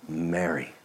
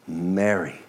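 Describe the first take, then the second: First: Much softer and lower; tender. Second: Softer and lower, gently; tender. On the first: Jesus gently speaking Mary's name, soft and tender. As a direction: say it gently and inviting. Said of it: "the tone when it's kind and gentle". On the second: Jesus tenderly calling Mary's name, softly. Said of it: "So beautiful, so kind, so tender". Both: Acted.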